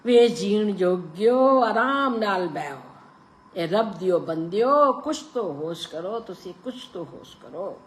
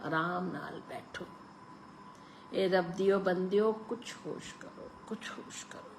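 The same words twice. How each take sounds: First: Put-on pleading old woman. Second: Softer, fading to a whisper; old woman's lips barely whisper the plea; faint whisper. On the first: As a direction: beg them to calm down. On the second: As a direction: murmur it like a ghost. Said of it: "क्षीण सी फुसफुसाहट". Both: A narrator's reading.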